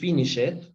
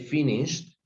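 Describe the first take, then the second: First: The ending is said as an extra syllable. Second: The ending adds no extra syllable. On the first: The speaker calls it wrong. "we don't say finish it" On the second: The speaker calls it right. "we say finished ... we don't pronounce the e"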